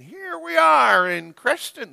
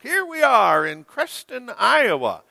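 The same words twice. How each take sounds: First: High, bright announcer imitation; TV parade announcer. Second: High announcer imitation, falling at the end; TV parade announcer. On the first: Pastor imitating the herbicide commercial's parade man, high announcer voice. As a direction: mimic the commercial's parade guy. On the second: Pastor repeating the commercial's parade man, high announcer voice. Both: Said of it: "That's how he talked".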